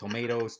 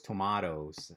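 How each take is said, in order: First: "Tomatoes" said as tow-MAY-toes; "Tomatoes" with an American AY vowel. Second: "tomatoes" said as to-MAH-toes; "tomatoes" with a British AH vowel. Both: Shown as a demonstration.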